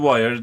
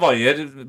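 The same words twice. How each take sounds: First: The word is pronounced the English way. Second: The word is pronounced the Norwegian way. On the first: "sa hun wire til engelsk" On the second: "Jeg sa wire på norsk"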